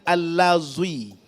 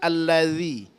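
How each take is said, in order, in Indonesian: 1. Huruf tengah itu bunyi 'z' yang berdengung. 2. Huruf tengah itu bunyi 'th' yang lembut. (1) "bukan huruf za" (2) "huruf zal"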